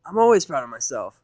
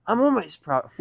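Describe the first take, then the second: First: Proclaiming Rainbow. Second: Rainbow's voice. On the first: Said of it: "Rainbow proclaimed". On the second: Rainbow proclaimed. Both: Acted.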